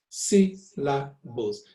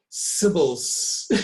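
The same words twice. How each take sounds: First: SYLLABLES slow, in three separate beats, si, la, bles. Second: SYLLABLES squashed into "sibbles", middle beat swallowed; wrong, squashed syllables. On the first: Teacher models the word for the class, syllable by syllable. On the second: Teacher shows what you cannot say, syllables squashed together. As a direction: drag out SYLLABLES with the LA missing. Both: Shown as a demonstration. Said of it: "You cannot say".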